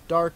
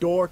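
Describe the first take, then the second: First: The vowel is an open 'ah' sound. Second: The vowel is a rounded 'or' sound.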